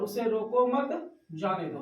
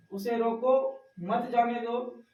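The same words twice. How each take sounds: First: रोको मत joined, break, then जाने दो falling; pause after मत. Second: रोको rising, short break, मत जाने दो as one unit; pause after रोको. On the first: Teacher contrasting two identical sentences, pause after मत. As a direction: hold the break until after मत, drop on जाने दो. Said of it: "ये जो अंतर आ रहा है". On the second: Teacher contrasting two identical sentences, pause after रोको. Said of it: "वाक्य एक ही है". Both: Shown as a demonstration.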